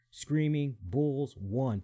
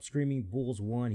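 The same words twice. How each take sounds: First: Slow, deliberate Screaming Bulls one with each word set apart; slowly dictating the handle Screaming Bulls one; slow spelled-out name. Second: Said in the usual way. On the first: Shown as a demonstration. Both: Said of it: "Put in the actual number one".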